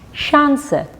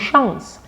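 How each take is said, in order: First: The final e is clearly pronounced. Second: The final e is not pronounced. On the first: The speaker calls it right. "pronunciada la E" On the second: The speaker calls it wrong. "no chance"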